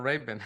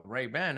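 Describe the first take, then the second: First: Ray-Ban as "RAY-bun", weak second vowel; childhood pronunciation. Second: Ray-Ban with a full open "ban", rising; American pronunciation. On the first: Shown as a demonstration. Telling how he learned it growing up, childhood pronunciation. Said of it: "I learned growing up calling". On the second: Retold or imitated. Imitating the cook who noticed the glasses, American pronunciation. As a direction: give Ray-Ban's second syllable a clear "a". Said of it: "my cook was like".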